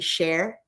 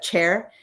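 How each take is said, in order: First: The word starts with a soft sh sound. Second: The word starts with a hard ch sound. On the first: "We would pronounce with a soft sh" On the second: "Instead of chair"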